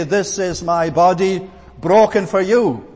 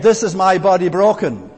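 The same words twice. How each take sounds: First: "broken for you" as one phrase, stress on "broken"; the wrong reading. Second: "This" stressed, falling to a stop after "broken"; the corrected reading. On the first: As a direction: read "This is my body broken for you" flowing straight on, pushing "broken". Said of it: "Jesus did not say". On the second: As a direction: lean on "This", no pause, end firmly on "broken". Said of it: "Take out the comma". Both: Shown as a demonstration.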